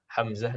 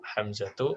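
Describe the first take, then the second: First: The name ends with -h, without a vowel. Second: The name ends with -tu and no nasal. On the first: This is the simple everyday form. "Adapun keseharian, ya nggak ribet" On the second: The name follows the rule for feminine endings.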